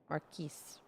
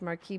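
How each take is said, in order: First: The word ends with an S sound. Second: The word ends without an S sound. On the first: The speaker calls it right. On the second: The speaker calls it wrong.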